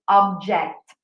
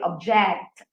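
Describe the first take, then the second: First: The stress is on the first syllable. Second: The stress is on the second syllable.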